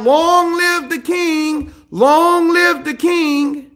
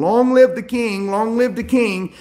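First: High, drawn-out mock cheer; hammed-up herald's cry; yelled acclamation. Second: Said in the usual way. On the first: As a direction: hail the king in a slow, high call. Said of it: "he yells out".

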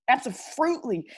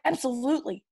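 First: "Absolutely" said as "abso-FRUIT-ly"; playful slang pronunciation. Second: Said in the usual way. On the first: Real, not acted. Kid boasting of his crew's catchphrase, playfully mangled "Absolutely" as "abso-frootly". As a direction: turn the LU of "Absolutely" into a "froot" sound. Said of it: "that's what we say".

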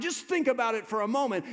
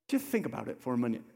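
First: Just think said high and loud; loud preached appeal. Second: Fast, at normal level; quick plain repeat. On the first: Acted. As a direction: shout the invitation. Preacher builds to full force. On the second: Shown as a demonstration. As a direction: toss it off, calmly. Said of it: "never say it with that intensity".

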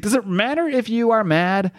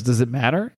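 First: Higher, emphatic god's retort; lightly voiced god posing a rhetorical question, pitched up; Khonshu voice. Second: Said in the usual way. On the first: God Khonshu answering a doubting Mark, higher emphatic retort. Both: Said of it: "Khonshu says".

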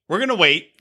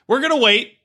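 First: Said in the usual way. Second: High mock quote. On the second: Shown as a demonstration.

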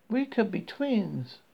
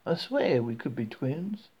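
First: Higher, slow Southern drawl; lightly voiced Southern woman; friendly Southern accent. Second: Slow, drawn-out Southern swear; a hint of Southern drawl; friendly Southern accent. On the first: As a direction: greet a stranger like a chatty Southern gal. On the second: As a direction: lean into the likeness with a Southern lilt. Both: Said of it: "speaking in a friendly southern accent".

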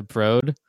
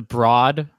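First: "Broad" with a long o, like "brode"; "Broad" said the museum's way, vowel as in "oh"; correct Broad. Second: "Broad" with an open aw vowel, like "brawd"; "Broad" said wrong, vowel as in "awe"; mispronounced Broad. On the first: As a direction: say "Broad" to rhyme with "road". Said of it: "rather than the Broad". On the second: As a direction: say "Broad" to rhyme with "fraud". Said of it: "pronounce that museum as the Broad". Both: Shown as a demonstration.

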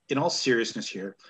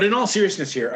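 First: Said in the usual way. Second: "in all seriousness here" said again louder, leaning on "all"; serious restart. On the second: Shown as a demonstration. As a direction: restart firmly, stressing "all". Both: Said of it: "and I'm not talking about Lance Storm".

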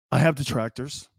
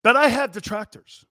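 First: Mock dramatic. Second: Hammed-up solemn vow, the word I pushed higher and louder; pompous mock pledge; mocking solemn declaration. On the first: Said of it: "It's like a sonnet". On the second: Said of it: "I just want all of you to know".

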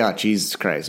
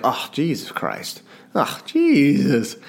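First: Said in the usual way. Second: Slow, weary "Oh, Jesus Christ. Oh, Jesus."; slow exasperated muttering; drawn-out exasperated sigh. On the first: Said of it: "We would say". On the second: Shown as a demonstration. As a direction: let it drag out like a tired habit. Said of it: "And I'll say it like".

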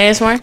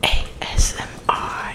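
First: Said in the usual way. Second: Soft, voiceless whisper; hushed whispered letters; ASMR whisper. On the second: Pretend. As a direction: whisper it close into the mic.

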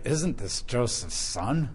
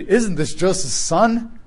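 First: Doubtful reading. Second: "Isn't this Joseph's son?" read slowly, rising in wonder; amazed reading. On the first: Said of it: "Or you can read it like". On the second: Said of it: "you could read". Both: Shown as a demonstration.

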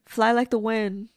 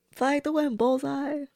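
First: Said in the usual way. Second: Higher, hammed-up Disney cheer; Disney-ish sing-song. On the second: Shown as a demonstration. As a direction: lift it up like a cartoon heroine's send-off. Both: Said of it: "I don't mean to get all Disney-ish".

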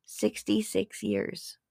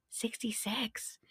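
First: Sixty-six years said slowly, letting sixty-six land; slow emphasis. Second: Sixty-six whispered softly in awe; awed whisper. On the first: Dramatic reveal of the number. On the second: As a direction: breathe Sixty-six as a secret. Whispered repeat of the number. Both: Shown as a demonstration.

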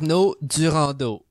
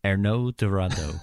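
First: Arnaud Durandeau said the French way with a throaty uvular R and stress on the last syllables; French accent. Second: Arnaud Durandeau with a flat English R and anglicized vowels; English-style attempt. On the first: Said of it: "I love how you say it with the accent". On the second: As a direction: try "Arnaud Durandeau" but with a plain American R, slowly. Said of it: "You gotta roll that R". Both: Shown as a demonstration.

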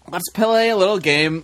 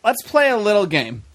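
First: Slow delivery with "play" stretched into two beats; drawn-out PLAY. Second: Said in the usual way. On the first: Shown as a demonstration. Host announcing a little game to the panel, drawn out on "play". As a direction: stretch "play" out, puh-lay. Host repeats phrase for effect.

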